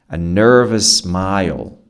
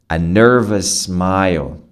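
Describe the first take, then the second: Both takes have the same delivery.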